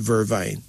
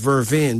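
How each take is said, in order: First: The second syllable sounds like 'vine'. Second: The second syllable sounds like 'vain'. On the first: This is how the speaker's community says it. "but we call it vervine" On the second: This is the standard pronunciation. "Pronounced as vervain"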